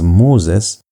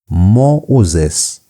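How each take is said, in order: First: The two middle vowels merge into one sound. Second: The two middle vowels are said as separate sounds. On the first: "you're supposed to pronounce it as Moses" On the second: "you're going to pronounce it as Mo-uzes"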